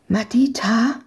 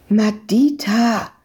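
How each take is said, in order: First: Hushed questioning call; cautious call. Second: Slow, drawn-out call of a name. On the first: Searcher calls the girl through a hole in the fence, cautiously. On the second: Searcher calls the girl once the men left, calling out. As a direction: call the child out of hiding. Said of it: "rief sie nun erneut". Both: A narrator's reading.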